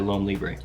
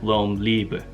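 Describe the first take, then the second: First: The name is said with an English pronunciation. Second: The name is said with a French pronunciation. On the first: This is the speaker's own way of saying it. "my French is non-existent, so I'll say" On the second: This is how others would say it. "some people would pronounce that like"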